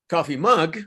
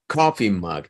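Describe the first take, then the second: First: The stress falls on the second word. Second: The stress falls on the first word. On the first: The speaker calls it wrong. "just because you change the intonation" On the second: The speaker calls it right. "Try to emphasize first syllable, I mean, sorry, first word"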